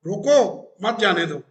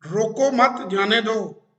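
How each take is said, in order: First: रोको alone, pause, then मत जाने दो; pause after रोको. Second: रोको मत, pause, then जाने दो; pause after मत. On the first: Host showing students an ambiguous order, pause after रोको. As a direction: stress रोको, break, then run मत जाने दो together. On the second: Host showing students an ambiguous order, pause after मत. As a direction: slowly, join मत to रोको and break before जाने. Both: Shown as a demonstration. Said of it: "रोकना है कि जान देना है".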